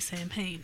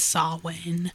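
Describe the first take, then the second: First: It is said like 'sam hain', with an M. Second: It is said like 'saul wayne', without an M. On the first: This reads the word the way it is written. The speaker calls it wrong. "it's funnier to say Sam Hain" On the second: This is the accepted pronunciation. The speaker calls it right. "I know it's Saul Wayne"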